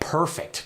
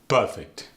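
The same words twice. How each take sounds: First: The R sound is pronounced. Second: The R sound is left out.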